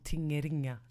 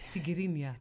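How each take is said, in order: First: The first syllable is said as 'ting'. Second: The first syllable is said as 'tig'. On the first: The speaker calls it wrong. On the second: The speaker calls it right.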